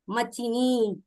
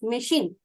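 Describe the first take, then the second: First: It is said as three syllables, ma-chi-ni. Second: It is said as two syllables, ma-sheen. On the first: It is read letter by letter as written. The speaker calls it wrong. "If we pronounce this word as it is written" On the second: It is the usual spoken form. The speaker calls it right. "Actual word, we pronounce it as machine"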